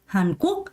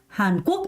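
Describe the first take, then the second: The two takes are said the same way.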